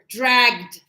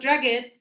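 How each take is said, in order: First: The ending is joined into one syllable. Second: The ending is said as an extra syllable. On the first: The speaker calls it right. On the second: The speaker calls it wrong.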